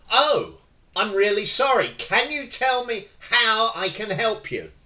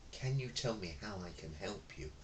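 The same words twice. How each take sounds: First: Loud, higher eager reply; match the angry customer's volume, helpfully; matched energy. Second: Much softer, faster reply; mismatched soft customer-service tone; meek reply to an angry customer; too calm. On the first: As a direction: meet their energy head on. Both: Shown as a demonstration. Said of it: "I didn't go".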